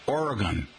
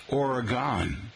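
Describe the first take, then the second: First: "Oregon" ending like "gun"; "Oregon" with a short, unstressed last syllable; local pronunciation. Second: "Oregon" ending in "gone"; "Oregon" with a full, drawn-out last syllable; outsider pronunciation. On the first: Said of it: "rhymes with gun". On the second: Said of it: "will you pronounce it, however". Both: Shown as a demonstration.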